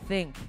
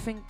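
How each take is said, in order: First: The word starts with a th sound. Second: The word starts with an f sound. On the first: The speaker calls it right. "T H, not F" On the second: The speaker calls it wrong. "Was that think with an F?"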